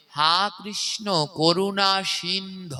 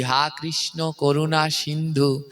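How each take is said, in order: First: "সিন্ধ" with no final u, slow and careful; correct pronunciation. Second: Said in the usual way. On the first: Shown as a demonstration. Preacher teaching devotees the right prayer, slow "সিন্ধ". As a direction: say "সিন্ধ" with the final vowel dropped, as "sindh". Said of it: "তাই উচ্চারণ হবে". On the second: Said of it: "তো আমি আপনাদের মতোই বলেছি".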